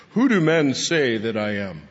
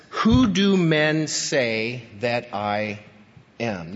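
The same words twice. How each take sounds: First: Puffed-up, self-important asking; arrogant question. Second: Slow, earnest and sincere asking; sincere question. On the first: Pretend. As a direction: ask it like you think you're a big deal. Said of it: "Think about how arrogant that would sound". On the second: Shown as a demonstration. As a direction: ask it genuinely, not proudly. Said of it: "It's a genuine, sincere, important question".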